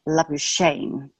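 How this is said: The name is said the English way. "it became anglicized to"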